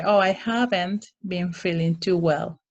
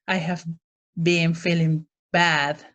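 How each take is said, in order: First: Light, gentle "Oh, I haven't been feeling too well"; gently understated complaint; polite and positive. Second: Mock-dramatic complaint; too dramatic. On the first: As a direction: soften it and keep it polite. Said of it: "You want to be kind of polite and, and positive". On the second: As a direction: overplay the bad feeling a little. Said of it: "you don't want to be too dramatic". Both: Shown as a demonstration.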